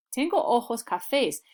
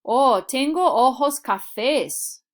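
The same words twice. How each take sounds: First: Said in the usual way. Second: Higher and louder, slow, bright answering voice; cheerful answer demo. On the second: Shown as a demonstration. Learner answering the eye colour question, cheerful and slow. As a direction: answer like a student replying in class. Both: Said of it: "What color of eyes do you have?".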